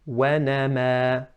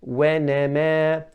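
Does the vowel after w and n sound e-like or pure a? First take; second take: pure a; e-like. First: The vowels are a pure open a. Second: The vowels lean toward an e-like sound. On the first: The speaker calls it right. "I should be saying wa" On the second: The speaker calls it wrong. "pronounced incorrectly ... mixing a sound of a kasra with it"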